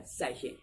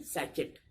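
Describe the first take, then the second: First: सैशे as sa-SHAY, silent t; soft "sh" in सैशे, open vowel ending; correct pronunciation. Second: सैचेट read as spelt, SATCH-et; wrong pronunciation. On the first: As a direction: model सैशे without any final t. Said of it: "इसकी exact pronunciation क्या है". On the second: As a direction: say सैचेट with "ch" and final "t". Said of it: "जो कि गलत है". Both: Shown as a demonstration.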